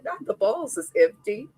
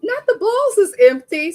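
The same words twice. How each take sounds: First: Said in the usual way. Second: Higher and louder, exclaiming on "balls"; shocked outcry. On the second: Retold or imitated. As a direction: shout it out in disbelief. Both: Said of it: "I said".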